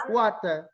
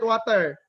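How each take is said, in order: First: "Water" with an Italian pronunciation; Italian accent. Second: "water" as "wah-ter", Filipino-style; Filipino accent. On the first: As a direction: say "Water" as "wat-uh", Italian-style, no final r. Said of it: "That's how people in Italy pronounce it". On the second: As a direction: Filipino pronunciation of "water", final r sounded. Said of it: "That's how the Filipino people pronounce it". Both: Shown as a demonstration.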